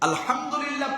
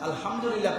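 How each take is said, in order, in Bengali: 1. হ-টি টান-করা, গলার ভেতরের ধ্বনি। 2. হ-টি সহজ, শ্বাসযুক্ত ধ্বনি। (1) "পড়লে সওয়াব আছে" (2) "পড়লে অর্থ বিকৃত হয়ে যাবে"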